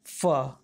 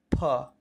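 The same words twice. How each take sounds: First: "फ" as "fa", teeth against lip; nukta f sound. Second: "फ" as "pha", popped from both lips; aspirated ph. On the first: Teacher repeating the nukta letter, "फ" as fa. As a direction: say "फ" low with a true f. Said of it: "ऊपर वाली दांत को नीचे वाले होठ". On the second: Teacher repeating for learners, "फ" as aspirated p. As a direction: say "फ" as p with a puff. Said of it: "दोनों होठों को मिलाकर". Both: Shown as a demonstration.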